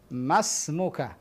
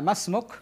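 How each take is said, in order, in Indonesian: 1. Kata ini berakhir dengan vokal a. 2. Kata ini berakhir pada k tanpa vokal. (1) "ana hidupkan semua harokat" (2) "Di dalam dialog misalnya masmuk, nah cukup"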